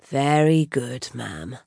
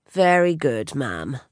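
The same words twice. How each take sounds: First: Slow, lower, calm butler voice; a calm butler, steady and low; calm deep voice. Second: Said in the usual way. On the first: A narrator's reading. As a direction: say it slow and unruffled, pitched low. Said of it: "in his calm, deep voice".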